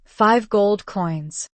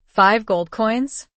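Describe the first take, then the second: First: Said in the usual way. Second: Slow, questioning repeat with a rise; shocked echo. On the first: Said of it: "then tells her". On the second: A narrator's reading. Girl repeats the sword's price, mildly shocked. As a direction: echo the price in mild disbelief. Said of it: "she is shocked and says".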